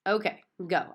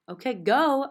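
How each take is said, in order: First: Said in the usual way. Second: Higher and much louder. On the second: A narrator's reading. Girl urging grandma to speak up, louder. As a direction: push it out louder, insisting. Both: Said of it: "I said louder".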